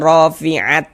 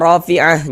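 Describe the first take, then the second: First: The word ends with a t sound. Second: The word ends with an h sound. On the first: The speaker calls it wrong. "jangan dibaca rafi'at, jangan" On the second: The speaker calls it right. "ini kita baca rafi'ah"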